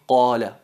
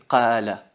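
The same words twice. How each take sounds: First: The first consonant is heavy and emphasized. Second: The first consonant is light and unemphasized. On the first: The speaker calls it right. "hay que decir" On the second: The speaker calls it wrong. "es un error decir"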